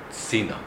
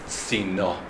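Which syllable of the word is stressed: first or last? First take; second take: first; last. First: The stress is on the first syllable. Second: The stress is on the last syllable. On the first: It means towards the place Tzin. The speaker calls it right. "the emphasis needs to be on the first syllable" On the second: It means a shield. The speaker calls it wrong. "You read the word tzina"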